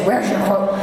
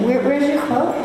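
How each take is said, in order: First: It is asked in a curt, challenging tone. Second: It is asked in a smiling, humble tone. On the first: The asker is confronting the other person. The speaker calls it wrong. "don't say" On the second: The asker is curious and respectful. The speaker calls it right. "You just smile and say"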